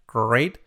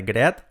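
First: GREAT as one syllable, "greyt"; model pronunciation. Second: GREAT read as spelt, "gre-at"; wrong pronunciation. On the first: Teacher giving learners the model, correct pronunciation. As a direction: say GREAT "greyt", end lifted. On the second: Teacher showing learners the mistake, wrong pronunciation. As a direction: say GREAT in two vowels, "greh-aht". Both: Shown as a demonstration. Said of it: "nada de great".

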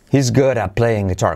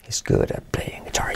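First: Said in the usual way. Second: Whispered model sentence. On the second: Shown as a demonstration. Teacher whispers the sentence for students to repeat. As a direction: breathe the line with no voice. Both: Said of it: "¿Conmigo?".

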